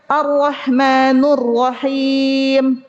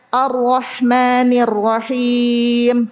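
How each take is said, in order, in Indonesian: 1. Huruf n diikuti vokal u. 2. Huruf n diikuti vokal i. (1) "pakai domah, itu masuk kesalahan jali" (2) "Itu nunnya kan Ar-Rahmani kasroh"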